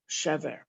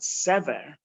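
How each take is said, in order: First: The word begins with an sh sound. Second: The word begins with an s sound. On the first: There were provisions. "if you pronounce it with a shin" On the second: There was hope. "move it to the left and pronounce it sever"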